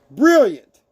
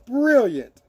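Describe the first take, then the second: First: Brilliant called out louder and higher; exclaimed brilliant. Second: Brilliant said through a laugh. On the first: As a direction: belt out Brilliant as a cheer. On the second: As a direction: let the laugh spill into Brilliant. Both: Shown as a demonstration. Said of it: "we say brilliant".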